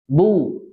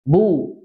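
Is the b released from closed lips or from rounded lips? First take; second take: closed lips; closed lips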